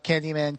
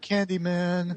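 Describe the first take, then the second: First: It is said lightly and casually. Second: It is said seriously and fearfully. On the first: The person does not take it seriously yet. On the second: The person is suddenly afraid.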